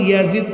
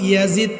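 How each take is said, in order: Both takes have the same delivery.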